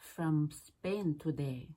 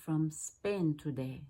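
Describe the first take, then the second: No difference in how they are said.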